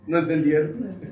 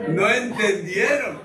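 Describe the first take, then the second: First: Said in the usual way. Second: "entendieron" drawn out slowly with emphasis; amused emphatic repeat. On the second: Real, not acted. Preacher to laughing congregation about the joke, amused and emphatic. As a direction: say "No entendieron" slowly, stressing each word.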